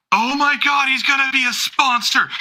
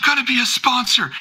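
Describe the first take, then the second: First: Much higher, thrilled squeal of news; overexcited fan. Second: Much higher thrilled repeat; overexcited fan. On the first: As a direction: squeal the news like it's huge. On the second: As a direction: squeal the news again. Repeating the fan's exclamation. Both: Acted.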